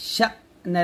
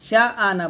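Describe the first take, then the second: First: The vowel is cut off with a sharp push. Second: The vowel glides smoothly into an extra syllable. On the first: The speaker calls it right. "এরকম ধাক্কা দিয়ে বলবেন" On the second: The speaker calls it wrong. "শা আনা বলবেন না"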